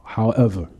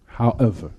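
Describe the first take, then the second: No difference in how they are said.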